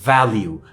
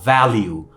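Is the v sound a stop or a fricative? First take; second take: fricative; fricative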